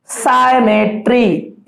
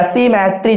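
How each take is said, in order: First: सिमेट्री said slowly as "sai-me-tri"; drawn-out "sai" opening. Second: सिमेट्री said "si-me-tri", first syllable as "si"; "si" opening. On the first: Teacher names the relation for students, सिमेट्री slowly as "sai-metri". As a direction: stretch सिमेट्री syllable by syllable, starting "sai". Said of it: "या सिमेट्री जो बोलना चाहे आप". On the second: Teacher lets students choose, सिमेट्री said as "si-metri". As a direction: pronounce सिमेट्री with "see" at the start. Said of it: "जो बोलना चाहे आप". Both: Shown as a demonstration.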